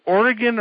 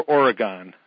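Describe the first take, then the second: First: "Oregon" with a short, unstressed last syllable; "Oregon" ending like "gun"; OR-uh-gun pronunciation. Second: "Oregon" with a full open last syllable; "Oregon" ending like "gone"; or-uh-GONE pronunciation. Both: Shown as a demonstration. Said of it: "is it Oregon or Oregon?".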